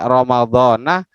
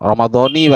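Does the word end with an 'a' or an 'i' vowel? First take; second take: a; i. First: The word ends with an 'a' vowel. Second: The word ends with an 'i' vowel. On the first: This year is read as an apposition to the month. The speaker calls it wrong. "Kalau dibaca Ramadhana ... Itu kurang" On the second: The month is linked to this year as its possessor. The speaker calls it right. "Ramadhani bacanya ini Bu, yang benar Bu ya"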